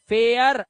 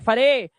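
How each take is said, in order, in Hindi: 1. स्वर 'eh' से 'uh' की ओर सरकता है। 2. स्वर एक छोटा, सीधा 'e' है। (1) "एया" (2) "मत कर देना"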